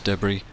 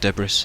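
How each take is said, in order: First: The word is pronounced in the usual way. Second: The word is pronounced in an odd, comic way.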